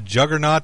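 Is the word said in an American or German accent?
American. It is said in a plain American accent.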